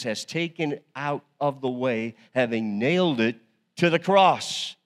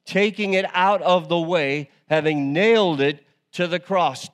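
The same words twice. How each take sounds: First: Said in the usual way. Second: Higher and louder, driving each phrase home; preached proclamation. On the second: Shown as a demonstration. Pastor repeating the verse to the church, proclaiming loudly. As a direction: proclaim it, leaning on out and nailed.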